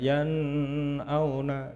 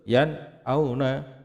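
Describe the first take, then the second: First: The n sound is blurred into the next sound. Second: The n sound is pronounced clearly and separately. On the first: The speaker calls it wrong. "tidak boleh dibaca" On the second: The speaker calls it right.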